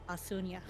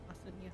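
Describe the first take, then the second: First: The name is said more loudly. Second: The name is said softly and quietly. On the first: "says it louder, a bit louder" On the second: "He says with a small voice"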